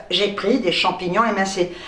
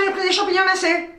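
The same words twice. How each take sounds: First: "émincés" said carefully with the full é at the start; corrected word. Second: Rushed, high and laughing, saying "mincés" without the é; fumbled word. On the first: Correcting herself for viewers, careful "émincés". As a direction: say "émincés" properly, é sounded clearly. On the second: Reading her receipt to viewers, stumbling on "mincés" with a laugh. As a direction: trip over "mincés", dropping the é, laughing. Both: Real, not acted.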